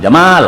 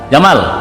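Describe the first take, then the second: First: The second vowel is drawn out long. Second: The second vowel is kept short. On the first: It means beauty. "panjang, oh itu berarti keindahan" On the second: It means camel. "itu kalau kita Indonesia onta"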